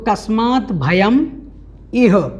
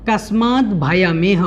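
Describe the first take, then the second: First: The words are split into separate parts. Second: The words run together as one unit.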